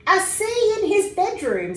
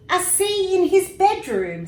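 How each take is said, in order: First: High, loud disbelieving echo; father echoing his son in disbelief; surprised father. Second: High, loud puzzled echo; mother echoing the words, puzzled; surprised mother. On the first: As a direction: repeat it in amazement. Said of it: "said his father". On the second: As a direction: echo it, baffled. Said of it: "said his mother". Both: A narrator's reading.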